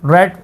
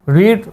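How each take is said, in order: First: The vowel is short, like 'red'. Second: The vowel is long, like 'reed'. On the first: It is the past form. "Second form को रेड पढ़ते हैं" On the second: It is the present form. "पढ़ने को English में कहते हैं रीड"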